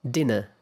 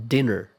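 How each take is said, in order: First: British "Dinner", no R, ending in schwa. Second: American "dinner", ending R-colored. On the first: Teacher repeating British "Dinner" with a schwa. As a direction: drop the R at the end of "Dinner". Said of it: "pronounced as a schwa". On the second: Teacher repeating American "dinner" with the R. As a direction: keep the R in "dinner". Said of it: "pronounced with an R colored vowel". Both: Shown as a demonstration.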